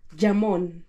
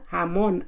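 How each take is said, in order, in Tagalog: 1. Nagsisimula ang salita sa tunog na J. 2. Nagsisimula ang salita sa tunog na H. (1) "ang bigkas niya dito ay jamon" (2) "Hamon. Ang bigkas"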